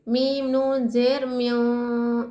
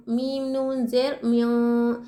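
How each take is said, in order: First: Very slow spelling, नून in म्यों hidden in the nose; slow tajweed spelling of म्यों, nasal nun; nasal ikhfa demo. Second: Slow spelling, म्यों said with a nasal nun; again spell म्यों, nun hidden in the nose; tajweed spelling of म्यों, nasal nun; nasal ikhfa demo. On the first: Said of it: "किस तरह से?". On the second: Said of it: "नाक में छुपाएंगे". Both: Shown as a demonstration.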